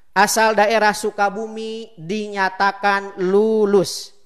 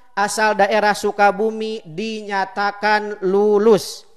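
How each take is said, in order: No difference in how they are said.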